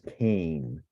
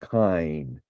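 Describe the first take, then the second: First: The vowel sounds like English 'ay'. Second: The vowel sounds like English 'eye'. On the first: "a somewhat more common pronunciation" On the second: "with the diphthong pronounced like the English word I"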